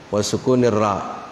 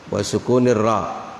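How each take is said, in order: No difference in how they are said.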